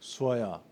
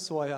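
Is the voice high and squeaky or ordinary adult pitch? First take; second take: ordinary; high squeaky. First: It is said in an ordinary adult voice. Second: It is said in a high, squeaky voice. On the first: The speaker has not adapted to the child. The speaker calls it wrong. "이렇게 말하는 사람은 없어요" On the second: The speaker comes down to the child's level. The speaker calls it right. "돌고래 같은 소리가 막 나오면서"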